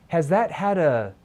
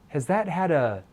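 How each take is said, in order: Both takes have the same delivery.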